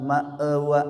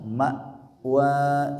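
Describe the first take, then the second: First: The middle sound bounces with an echoing release. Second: The middle sound is a held glottal stop. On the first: The speaker calls it wrong. "atau mantul" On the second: The speaker calls it right. "hamzah sukun. Ketika dibaca suara dan nafasnya karena tertahan"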